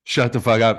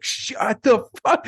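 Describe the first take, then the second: First: Louder, firmer repeat of the yell; retold scream. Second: Sudden high scream at the heckler. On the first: Comic retelling Tim Heidecker yelling at hecklers, mock yell. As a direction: bark it once more to shut them up. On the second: Retold or imitated. Comic retelling how Tim Heidecker screamed at hecklers. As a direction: scream it out to silence the room. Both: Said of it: "He just screamed".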